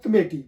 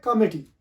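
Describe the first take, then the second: First: कमेटी with weak first vowel, long stressed "may"; wrong pronunciation. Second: कमेटी with open first vowel, "KAW-mi-tee"; correct pronunciation. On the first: Teacher reads out the Urdu spelling, wrong pronunciation of कमेटी as "kuh-MAY-tee". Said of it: "ये कमेटी नहीं है". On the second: Teacher gives the actual English word, correct कमेटी as "KAH-mi-tee". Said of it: "ये actual word है कमेटी". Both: Shown as a demonstration.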